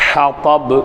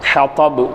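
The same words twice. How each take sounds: Both takes have the same delivery.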